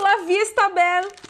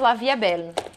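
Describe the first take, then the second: First: The middle word sounds like 'vista'. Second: The middle word sounds like 'vee'. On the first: The speaker calls it wrong. "não é assim que fala" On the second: The speaker calls it right. "Já sei falar direito"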